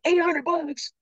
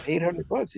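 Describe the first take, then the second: First: Very high-pitched, disbelieving outburst; astonished kid. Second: Lightly raised, offhand reassurance; casual confirmation. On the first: Son hearing what the first day pays, high-pitched amazement. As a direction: squeal the amount in amazement. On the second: Dad confirming the day's pay to his son, casual and offhand. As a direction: confirm it as no big deal. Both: Retold or imitated.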